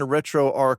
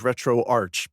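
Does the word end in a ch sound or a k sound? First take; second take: k sound; ch sound. First: The final word ends in a k sound. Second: The final word ends in a ch sound. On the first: "I say arc" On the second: "a lot of people who say arch"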